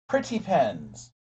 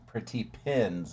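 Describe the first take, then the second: First: The vowel sounds like the one in 'pen'. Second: The vowel sounds like the one in 'pin'. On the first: The speaker calls it wrong. "not pens" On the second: The speaker calls it right. "I need to pronounce it pretty pins"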